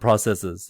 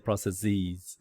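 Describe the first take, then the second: First: The final syllable has a short, reduced vowel. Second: The final syllable has a long 'eez' vowel. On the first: The speaker calls it right. "the regular plural for a word in English is just us at the end" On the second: The speaker calls it wrong. "You don't say processes"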